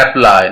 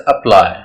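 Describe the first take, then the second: First: "अप्लाई" with a full AP at the start; wrong pronunciation. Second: "अप्लाई" with a schwa start, weight on PLY; stress on P. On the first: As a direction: open "अप्लाई" on a strong sheep-sound A. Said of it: "ना, इसे अप्लाई". ("अप्लाई" का गलत उच्चारण, शुरू में पूरा ऐ) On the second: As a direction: weaken the first vowel of "अप्लाई", push the p. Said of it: "P पे stress है". ("अप्लाई" में पी पर ज़ोर, शुरू में हल्का अ) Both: Shown as a demonstration.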